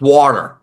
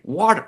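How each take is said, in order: First: "water" with "aw" like coffee, low and firm; New York pronunciation. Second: "water" with an open "ah" vowel; fancy Connecticut pronunciation. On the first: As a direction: say "water" with barely any final R. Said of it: "it's like coffee". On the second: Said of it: "fancy Connecticut where I say water". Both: Shown as a demonstration.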